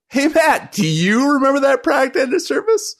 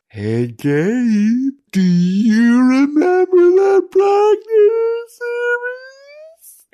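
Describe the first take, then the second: First: It is said in a normal voice. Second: It is said in a creepy voice.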